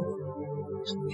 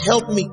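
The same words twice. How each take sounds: First: It is said quietly. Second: It is shouted loudly.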